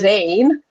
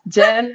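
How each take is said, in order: First: The name begins with a buzzing Z sound. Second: The name begins with a J sound. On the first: "my son's name is Zain" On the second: "it's like Jen"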